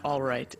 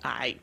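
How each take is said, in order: First: Both words are said fully and clearly. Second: It is squeezed into one short syllable. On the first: The speaker calls it wrong. "it's not all right" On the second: The speaker calls it right. "don't pronounce it correctly"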